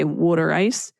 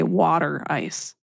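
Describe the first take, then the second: First: "water" said as "wooder" in "water ice"; Delaware County pronunciation. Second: "water" said as "wahter" in "water ice"; Chester County pronunciation. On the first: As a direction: give "water" the Delco vowel, WOOD-er. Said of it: "they would say water ice". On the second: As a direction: open the first vowel of "water", WAH-ter. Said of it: "but we say water ice". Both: Shown as a demonstration.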